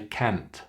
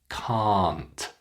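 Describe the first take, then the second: First: The vowel is cut short. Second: The vowel is held long. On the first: The speaker calls it wrong. "Students often make it short and say can't" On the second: The speaker calls it right. "Make it long"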